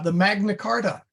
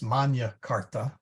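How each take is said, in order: First: It is said with English vowel sounds. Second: It is said with Latin vowel sounds. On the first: The speaker calls it wrong. "that's pronounced as if it were an English word" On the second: The speaker calls it right. "it should really be pronounced Magna Carta"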